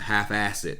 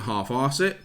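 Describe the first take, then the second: First: It is said in an American accent. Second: It is said in a British accent.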